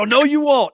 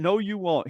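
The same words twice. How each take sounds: First: Teasing no, pitched high and loud; playfully refuse, pushing it hard; mock refusal. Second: Said in the usual way. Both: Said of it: "I'm totally giving him a hard time".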